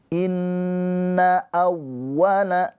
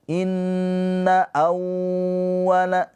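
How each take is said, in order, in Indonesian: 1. Bunyi w yang digandakan ditekan sebentar, tidak ditahan. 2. Bunyi w yang digandakan ditahan lama. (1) "Waw yang bertasydid hanya ditekan, jangan ditahan" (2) "Jangan inna awwala, jangan ya"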